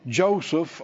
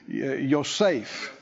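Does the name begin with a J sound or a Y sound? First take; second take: J sound; Y sound. First: The name begins with a J sound. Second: The name begins with a Y sound. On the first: This is the usual English way of saying it. "that's how we pronounce it" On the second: This is closer to the original Hebrew. "It'd be Yosef, I think is how it is, maybe more correctly"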